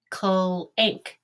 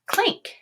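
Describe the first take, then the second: First: "Clank" drawn out sound by sound. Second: Said in the usual way. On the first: Shown as a demonstration. Teacher tapping out a word for students, "Clank" in separate sounds. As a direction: tap out "Clank" in separate pieces. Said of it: "tap this word out and say it". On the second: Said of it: "and say it".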